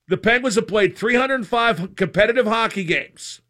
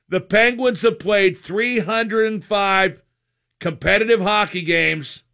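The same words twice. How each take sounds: First: The sentence is spoken at a normal, faster pace. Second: The sentence is spoken at a slower, deliberate pace.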